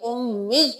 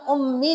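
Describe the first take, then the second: First: The final ya sound is held and doubled. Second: The final ya sound is short and single. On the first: The speaker calls it right. "मीम को या के साथ भी मिलाएंगे, इस पर भी तशदीद है" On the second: The speaker calls it wrong. "अब यहाँ पे हम उम्मी नहीं करेंगे"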